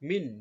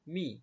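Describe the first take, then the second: First: মিন closed firmly on a held n; n-ending মিন. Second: মি with no n at the end; open short মি. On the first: Teacher showing two zer to pupils, মিন ending in n. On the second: Teacher showing one zer to pupils, open মি. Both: Shown as a demonstration. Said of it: "উচ্চারণ হবে".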